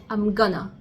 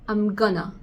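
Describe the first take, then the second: No difference in how they are said.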